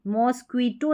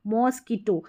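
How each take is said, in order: First: मॉस्क्वीटो with a "kwee" middle; mispronounced mosquito. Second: मॉस्किटो with a plain "kee" middle; corrected mosquito. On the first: Teacher showing learners what not to say, mispronounced. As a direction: say मॉस्क्वीटो wrongly, sounding qu as "kw". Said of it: "नहीं बोलते हम". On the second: Teacher correcting the word for learners, corrected pronunciation. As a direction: say मॉस्किटो with qu as a hard k, no w. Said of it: "नहीं, मॉस्किटो". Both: Shown as a demonstration.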